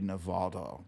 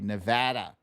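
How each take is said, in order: First: It is said the coastal elites' way. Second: It is said the way Nevada locals say it.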